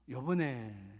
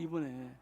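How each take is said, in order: First: It is said in the regional dialect form. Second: It is said in the standard Korean form. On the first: The speaker calls it wrong. "그 사투리" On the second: The speaker calls it right. "이번에가 표준어예요"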